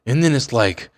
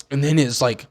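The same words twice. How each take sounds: The two takes are said the same way.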